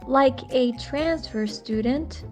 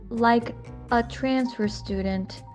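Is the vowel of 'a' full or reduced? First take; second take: full; reduced. First: The word 'a' has a full vowel. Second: The word 'a' has a reduced schwa vowel. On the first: "instead of saying like a transfer student" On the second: "he is saying like a transfer student"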